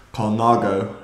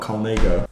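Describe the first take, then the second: First: Colnago with middle syllable "nah"; Colnago, open "ah" in the middle; correct Colnago pronunciation. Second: Colnago with middle syllable "nay"; Colnago, "ay" sound in the middle; mispronounced Colnago. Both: Shown as a demonstration. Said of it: "not Colnago".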